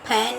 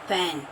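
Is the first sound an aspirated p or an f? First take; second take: aspirated p; f. First: Both lips close for an aspirated p. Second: The lower lip touches the upper teeth: f. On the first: The speaker calls it wrong. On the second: The speaker calls it right.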